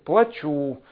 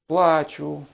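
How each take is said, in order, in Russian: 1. Ударение на втором слоге. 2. Ударение на первом слоге. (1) "плачу, поменяйте ударение" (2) "Вы плачете?"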